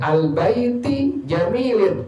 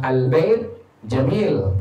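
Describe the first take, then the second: First: The words end in i and in sounds. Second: The words end without any vowel endings. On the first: "ketahuan salah" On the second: "Kalau sukun aman"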